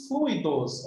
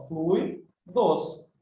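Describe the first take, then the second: First: Said in the usual way. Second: "fluidos" split slowly into FLUI-dos; syllable by syllable. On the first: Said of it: "Olha só". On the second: Shown as a demonstration. Teacher showing students the diphthong, "fluidos" spaced out as FLUI-dos. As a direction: break "fluidos" in two, keeping UI together. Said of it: "É uma paroxítono que tem um ditongo".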